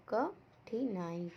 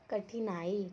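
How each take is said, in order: First: "कठिनाई" very slowly, a pause after क; syllable by syllable. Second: Said in the usual way. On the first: Shown as a demonstration. Teacher showing the vowel sign to pupils, "कठिनाई" very slow and separated. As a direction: stretch "कठिनाई" out sound by sound. Breaks word into sounds.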